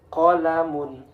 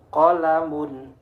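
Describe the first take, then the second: The two takes are said the same way.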